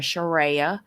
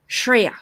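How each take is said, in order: First: The name is said slowly, drawn out. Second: The name is said quickly, rushed through. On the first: The speaker calls it wrong. "we all say Sharia" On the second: The speaker calls it right. "you have to go really fast through it"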